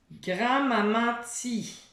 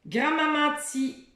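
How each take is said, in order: First: Grand-maman ti slowly, falling; teacher repeating slowly. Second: Grand-maman ti higher, ti added at the end; teacher quizzing; game word. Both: Shown as a demonstration. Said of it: "On continue".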